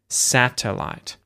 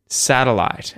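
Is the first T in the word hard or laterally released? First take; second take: hard; lateral. First: The first T is a hard, fully released T. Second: The first T is released through the tongue's sides. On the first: "So you could pronounce it as a hard T" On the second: "I'm using the syllabic L with lateral release"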